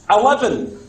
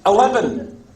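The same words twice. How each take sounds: Both takes have the same delivery.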